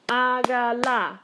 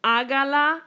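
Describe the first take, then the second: First: Slow "hágala", every vowel drawn out; syllable by syllable. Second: Said in the usual way. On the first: Shown as a demonstration. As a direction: sound out "hágala" in three stretched beats. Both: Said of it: "Here's my first vowel".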